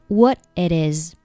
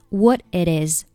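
First: Final t of what dropped; only it and is linked. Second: Final t of what dropped; only it and is linked.

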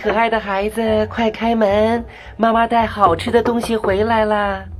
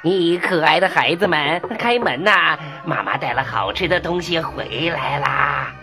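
First: The voice sounds smooth and sweet. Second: The voice sounds rough and hoarse.

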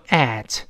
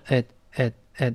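First: The vowel is full and clearly pronounced. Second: The vowel is weakened and said quickly. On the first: "这个介词本来读at" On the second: "会弱化成at，一带而过"

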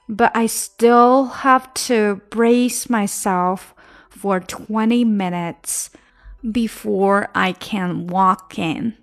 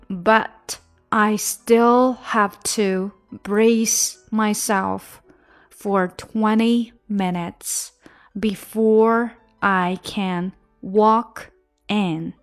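First: The words are linked together smoothly. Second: The words are said slowly and separately. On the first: "现在我们再连一下" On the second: "我们先来慢慢的分开读"

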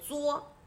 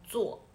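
First: The syllable has a high level tone. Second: The syllable has a falling tone. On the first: "它才念一声作" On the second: "其他的场合都读作"

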